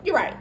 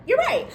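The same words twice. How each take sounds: First: Said in the usual way. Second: Much higher-pitched giving in; high concession. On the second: Acted. Storyteller giving in to coworker Happy, suddenly high-pitched.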